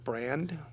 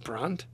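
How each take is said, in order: First: The name is said like the English word brand. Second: The name is said with a German pronunciation. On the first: It reads like the ordinary English word. "It's B-R-A-N-D, like brand" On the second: It is how the bearer of the name said it. "but he would have pronounced it Brandt"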